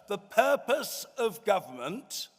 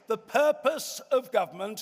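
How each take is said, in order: First: It is said slowly and deliberately. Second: It is said at normal speed.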